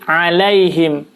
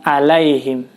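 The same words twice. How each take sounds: First: The start has a clear throaty ain sound. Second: The start has no clear throaty ain sound. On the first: The speaker calls it right. "Jadi alaihim" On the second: The speaker calls it wrong. "bukan alaihim"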